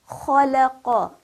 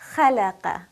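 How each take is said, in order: First: The first consonant is heavy, with a full mouth. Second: The first consonant is light, with a thin mouth. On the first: The speaker calls it right. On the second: The speaker calls it wrong.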